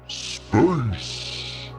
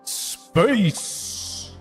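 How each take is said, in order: First: The word is said in a low-pitched voice. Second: The word is said in a higher-pitched voice. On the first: The speaker calls it wrong. "That was too low" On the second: The speaker calls it right. "That's good"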